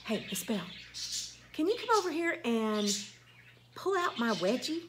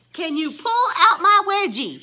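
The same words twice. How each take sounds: First: Softer, matter-of-fact asking; casual request. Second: Louder, disbelieving "pull out my wedgie?"; loud scandalized echo; incredulous repeat. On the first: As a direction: quote the girl asking offhand. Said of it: "she said". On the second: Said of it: "These are the things that people say to me". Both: Retold or imitated.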